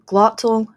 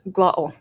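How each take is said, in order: First: The middle T is a full T. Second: The middle T is a glottal stop.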